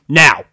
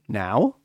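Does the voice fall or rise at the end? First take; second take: fall; rise. First: The pitch falls at the end, like a statement. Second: The pitch rises at the end, like a question. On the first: A demand to go immediately. The speaker calls it wrong. "Do you see the difference in instant?" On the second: Asking whether now is a good time. The speaker calls it right. "Now question mark"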